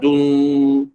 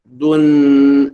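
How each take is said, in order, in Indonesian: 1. Bunyi sengau di akhir tetap dengan bibir membulat dan maju. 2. Bibir cepat ditarik ke belakang sebelum sengau. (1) "bukan dun" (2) "Cepat-cepat tarik eh, dapat dun"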